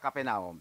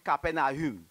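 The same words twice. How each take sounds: First: The 'au' merges into a single O vowel. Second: The 'a' and 'u' are said as separate vowels. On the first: The speaker calls it wrong. "c'est pas Capernaum" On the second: The speaker calls it right. "il prononce A U"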